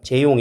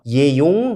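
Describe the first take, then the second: First: The name begins with a 'j' sound. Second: The name begins with a 'y' sound. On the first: "저도 이름이 재용이니까" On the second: "독일 애들은 십중팔구 다 이렇게 씁니다. 융은 이렇게 읽어요"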